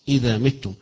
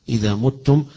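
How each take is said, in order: First: The first vowel of the verb is 'i'. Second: The first vowel of the verb is 'u'. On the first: "متم بالكسر" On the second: "وقراءة الجمهور وغير هؤلاء يقرؤون"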